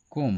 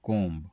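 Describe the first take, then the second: First: कोम ending on M, silent B; correct pronunciation. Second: कोम्ब, loud, with the final B sounded; common mispronunciation. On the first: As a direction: say कोम with no B after the M. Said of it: "बी silent होता है". (कोम, ब silent, सही उच्चारण) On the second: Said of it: "अधिक लोग यही करते हैं". (कोम्ब के अंत में ब बोलकर गलत उच्चारण) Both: Shown as a demonstration.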